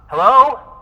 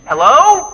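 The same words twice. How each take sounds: First: It is said at normal volume. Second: It is said too loudly.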